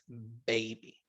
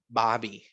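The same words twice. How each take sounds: First: The first vowel is a long 'ay' sound. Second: The first vowel is a plain 'ah' sound. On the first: The speaker calls it right. "el sonido largo de la A es A" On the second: The speaker calls it wrong. "No es baby"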